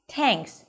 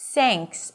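First: The first sound is hard, with a tense tongue. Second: The first sound is a hissing s sound. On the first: "if it's too tight against the teeth, it's going to sound like thanks" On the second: "otherwise you may be pronouncing it as an S"

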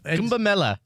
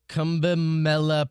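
First: The name is said firmly, with confidence. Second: The name is said tentatively, without confidence. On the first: The speaker calls it right. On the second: The speaker calls it wrong.

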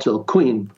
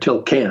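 First: The name is pronounced the English way. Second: The name is pronounced the French way. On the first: The speaker calls it wrong. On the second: The speaker calls it right.

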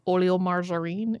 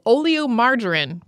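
First: It is said with a French accent. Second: It is said with an English accent.

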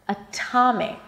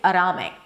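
First: The T is strong with a puff of air. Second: The T is a light flap, like a D. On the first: The speaker calls it right. "it's actually a strong aspirated T with a little H after" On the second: The speaker calls it wrong. "I cannot make it a flap T. I cannot say atomic"

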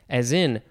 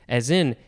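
The two takes are said the same way.

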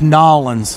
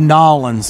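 First: The name is run together into one quick word. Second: The name is run together into one quick word.

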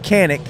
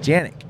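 First: The word begins with a hard K sound. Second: The word begins with a J sound. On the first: The speaker calls it wrong. "I'm gonna say it wrong first" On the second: The speaker calls it right. "but it's pronounced Janik"

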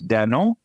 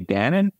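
First: It is said with a French pronunciation. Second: It is said with an American English pronunciation. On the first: "they pronounce it in France" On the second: "In the United States, we say"

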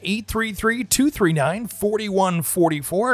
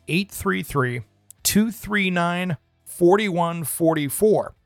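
First: The number is said at a faster pace. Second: The number is said at a slower pace.

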